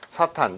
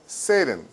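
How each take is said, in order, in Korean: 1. 한국식으로 발음해요. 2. 영어식으로 발음해요.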